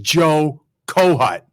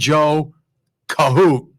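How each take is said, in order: First: The surname ends with a short 'hut' sound. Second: The surname ends with a long 'hoot' sound. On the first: The speaker calls it right. "He's Joe Kohut" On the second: The speaker calls it wrong. "Don't call him Joe Kahoot"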